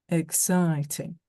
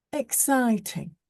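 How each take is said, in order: First: Slow, daft imitation of a soft Yorkshire accent; posh boy mocking a soft Yorkshire accent. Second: Said in the usual way. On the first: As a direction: tease her by parroting her Yorkshire vowels, slowly. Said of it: "her soft Yorkshire accent, trying to make her sound daft". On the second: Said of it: "He was imitating her voice".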